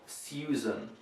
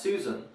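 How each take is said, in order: First: It is said in an old-fashioned way. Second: It is said in the modern, usual way. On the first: The speaker calls it wrong. "but not Susan" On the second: The speaker calls it right. "So this is pronounced Susan"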